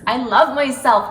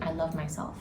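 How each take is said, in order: First: It is said with intense, whole-body feeling. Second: It is said plainly, as a simple statement.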